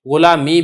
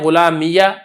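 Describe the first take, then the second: First: The word ends in a long ee sound. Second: The word ends with an added ya syllable. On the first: "इसको आप साकिन भी छोड़ सकते हैं" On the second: "आप इसको फतह भी दे सकते हैं"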